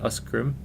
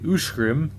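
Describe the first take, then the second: First: The middle consonants sound like 'sk'. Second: The middle consonants sound like 'sh'. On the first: The speaker calls it wrong. "not Uskgrim" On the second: The speaker calls it right. "Usgrim is actually Ushgrim"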